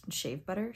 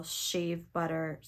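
First: "shave butter?" with a puzzled rise; questioning SHAVE BUTTER. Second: Said in the usual way. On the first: Real, not acted. Doubts the word just read.

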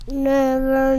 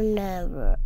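First: Loud, higher shout of Never. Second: Never dropped low and firm, falling; lower final never. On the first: Mommy yelling at the child never to go down. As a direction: bellow Never like an angry mother. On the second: Mommy ending her warning with a low, falling never. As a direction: end with a heavy, lower never. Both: Retold or imitated. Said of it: "and yelled at me".

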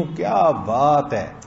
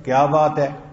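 First: Slow, drawn-out praise falling at the end; amazed admiration. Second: Loud, short challenge; a touch of anger, pushed louder on बात; slightly angry. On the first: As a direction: stretch क्या बात है in wonder. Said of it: "मैं ताज्जुब में, तारीफ में कह रहा हूं". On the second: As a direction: demand it with mild irritation. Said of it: "अगर जरा गुस्से में". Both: Shown as a demonstration.

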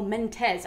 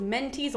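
First: "Mentes" said as men-TEZ; "Mentes" with a -tez ending; alternate pronunciation. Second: "Mentes" said as MEN-teez; "Mentes" with a -teez ending; alternate pronunciation. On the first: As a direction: end "Mentes" with a short e, like "Tez". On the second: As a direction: end "Mentes" with a long ee, like "tease". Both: Shown as a demonstration. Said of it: "pronounced in both ways".

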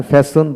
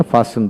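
First: ফ্যাশন as "fae-son", front vowel; rejected pronunciation. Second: ফ্যাশন as "faa-sun", open vowel; preferred pronunciation. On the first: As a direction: say ফ্যাশন starting "feh", with an s. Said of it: "ফ্যাশন বলি না". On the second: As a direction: say ফ্যাশন starting "fah", with an s. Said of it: "ফ্যাশন বলি". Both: Shown as a demonstration.

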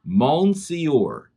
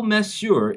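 First: Monsieur read as spelt, "mon-see-or"; spelling pronunciation. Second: Monsieur said the French way, roughly "mess-yur"; correct French pronunciation. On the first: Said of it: "it looks like it says". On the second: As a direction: say monsieur as "muh-syur", without sounding the n. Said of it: "it sounds different than it looks". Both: Shown as a demonstration.

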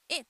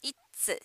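First: "it's" with lax i, light T, no final vowel; native-style it's. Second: "it's" as i-ttsu, hard T and final u; Japanese-style it's. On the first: Teacher modelling native "it's", lax i and light T. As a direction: relax the jaw on "it's", end on ts. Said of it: "tをあんまり強調しなければ". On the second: Teacher showing how Japanese learners say "it's", as i-ttsu. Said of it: "日本人の皆さんが発音すると". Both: Shown as a demonstration.

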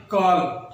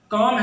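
First: کالم with the L pronounced; wrong, L sounded. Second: کام drawn out with no L; correct pronunciation. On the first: Teacher names the form to avoid, sounded L in کالم. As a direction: let the L be heard in کالم. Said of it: "ہے نہ کہ کالم". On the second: Teacher contrasts right with wrong, silent L in کام. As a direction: hold the vowel in کام, L silent. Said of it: "اس لفظ کا درست تلفظ". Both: Shown as a demonstration.

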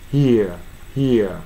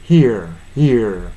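First: "here" as "hee-a", no r; British non-rhotic. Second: "here" with a ringing final r; standard American R. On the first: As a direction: end "here" on an open vowel without curling the tongue. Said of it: "ブリティッシュの発音で発音する". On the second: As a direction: let the r resonate at the end of "here". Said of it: "本来はアメリカの標準発音で". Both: Shown as a demonstration.

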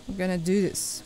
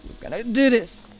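First: Said in the usual way. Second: Pumped up. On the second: Real, not acted. Gamer psyching up before a jump, pumped.

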